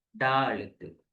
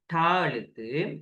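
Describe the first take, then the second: First: "டா" as daa with a hard voiced d; voiced retroflex da. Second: "டா" as taa with a hard t; voiceless retroflex ta. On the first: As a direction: curl the tongue for d in "டா". ("டா" அதிர்வுள்ள d ஒலி) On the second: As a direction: curl the tongue for unvoiced t in "டா". ("டா" அதிர்வில்லாத t ஒலி) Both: Shown as a demonstration. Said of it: "என்ன சத்தம் அப்படின்னு".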